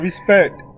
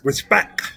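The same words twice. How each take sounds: First: The word ends with a clear t sound. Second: The word ends with a k sound, no t. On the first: The speaker calls it wrong. "not respect" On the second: The speaker calls it right. "R E S P E C K"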